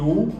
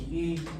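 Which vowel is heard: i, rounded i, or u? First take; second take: u; rounded i. First: A plain back rounded u vowel. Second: An i vowel said with rounded lips. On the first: The speaker calls it wrong. "No es ni U" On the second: The speaker calls it right. "uno pone la boca en forma de U, pero solo el sonido de la I"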